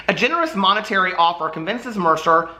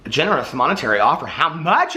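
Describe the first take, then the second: First: Said in the usual way. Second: "a generous monetary offer?" asked back, quick and curious; quizzical. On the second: Retold or imitated. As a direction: question the blurb like you want the number.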